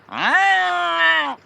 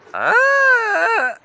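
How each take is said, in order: First: It is said with more nasal quality. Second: It is said with less nasal quality.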